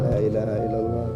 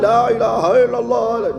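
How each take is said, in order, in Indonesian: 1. Frasa ini diucapkan dengan suara pelan. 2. Frasa ini diucapkan dengan suara keras. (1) "kalau sendiri pelan-pelan" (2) "tapi keras suaranya, ya salah"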